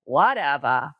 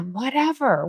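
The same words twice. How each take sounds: First: Imitating a Boston accent, lower pitch; a lightly done Boston "Whatever", broad open vowel, r dropped: "whatevah". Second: Said in the usual way. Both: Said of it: "in her Boston accent".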